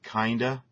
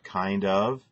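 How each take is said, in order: First: The two words blend into one reduced word. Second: Both words are pronounced fully and separately. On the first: The speaker calls it wrong. "words like kinda instead of kind of" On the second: The speaker calls it right. "instead of kind of"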